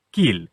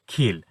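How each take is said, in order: First: Said in the usual way. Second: "খিল" opening on a breathy k; aspirated K. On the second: Shown as a demonstration. Teacher shows children "খিল" with aspirated k. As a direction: puff air after the k in "খিল". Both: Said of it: "এটার উচ্চারণ হবে".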